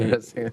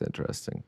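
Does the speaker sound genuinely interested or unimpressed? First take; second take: interested; unimpressed. First: The tone is genuinely curious and engaged. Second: The tone is flat and unimpressed. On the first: The thing is truly intriguing. "or it's" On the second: The thing is actually bad. "It's like when you're at an art gallery and you're like"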